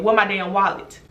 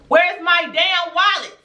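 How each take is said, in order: First: Retold blunt question in an even voice; straight, blunt demand. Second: High, drawn-out indignant demand; retold furious demand. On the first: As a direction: ask it straight out, no shouting. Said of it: "Straight like that". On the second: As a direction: stretch it out high as the temper boils over. Retelling her wallet confrontation, escalating.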